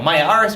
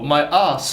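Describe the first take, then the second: First: The word is said with an r sound. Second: The word is said without an r sound. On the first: "an Irish guy" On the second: "the British they don't pronounce this r"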